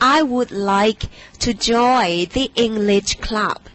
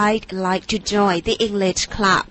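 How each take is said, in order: First: The word would is said in full. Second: The word would is shortened to a d.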